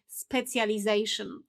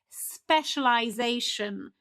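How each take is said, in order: First: It is said in a Polish-influenced way. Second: It is said in a natural English way. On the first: The speaker calls it wrong. "this kind of calc from the Polish language" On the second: The speaker calls it right. "the proper pronunciation"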